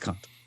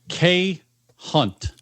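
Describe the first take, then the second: First: The letter and word are run together quickly. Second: The letter and word are said separately.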